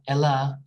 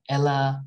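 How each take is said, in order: The two takes are said the same way.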